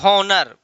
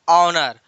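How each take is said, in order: First: The word begins with an h sound. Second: The word begins with a vowel sound. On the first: The speaker calls it wrong. "गलत बात" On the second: The speaker calls it right. "जब H silent है"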